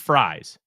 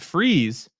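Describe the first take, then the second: First: The vowel sounds like the one in 'eyes'. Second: The vowel sounds like the one in 'please'. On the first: "it is Fries ... it's pronounced like French fries" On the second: "is also spelled like fries, but it's not pronounced that way"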